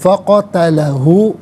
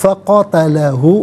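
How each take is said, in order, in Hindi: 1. शब्द छोटे 'उ' स्वर से खत्म होता है। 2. शब्द छोटे 'उ' स्वर से खत्म होता है।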